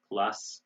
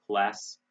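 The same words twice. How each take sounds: First: British "class" with ah vowel; "class" with a back open vowel; British pronunciation. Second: American "class" with front a; "class" with open ae sound; American pronunciation. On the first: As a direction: say "class" as clahss. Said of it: "they say bath in Britain". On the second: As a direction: say "class" with the vowel of cat. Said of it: "We say bath". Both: Shown as a demonstration.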